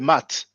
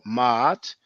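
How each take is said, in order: First: It has one vowel and no break. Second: A throat catch separates the two vowels. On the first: The speaker calls it wrong. "try not to say mat" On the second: The speaker calls it right. "try to pronounce it ma'at"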